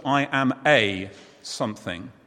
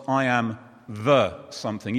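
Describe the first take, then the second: First: "a" said long as "ay", the word leaned on; stress on a. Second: "the" marked out against "a", rising at the end; stress on the. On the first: Teacher contrasting a with the for the group, stressing "a". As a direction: lean on "a" in "I am a something". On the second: Teacher showing the line the group should say, stressing "the". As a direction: point up "the" in "I am the something". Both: Shown as a demonstration.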